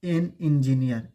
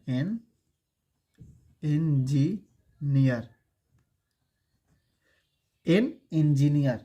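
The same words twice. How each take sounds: First: Said in the usual way. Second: एन, a pause, then engineer stretched very slowly; teacher modelling एन engineer slowly; slow teaching demo. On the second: Shown as a demonstration. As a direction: drag out engineer for the class. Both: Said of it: "अगर लिखे".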